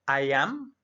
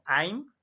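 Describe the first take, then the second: First: It is said as two separate full words. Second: It is said as one contracted syllable.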